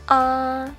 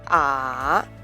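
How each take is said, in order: First: The pitch stays high and level throughout. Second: The pitch dips low, then rises again. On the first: "The first tone in Mandarin is high and level" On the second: "The third tone falls and then rises again"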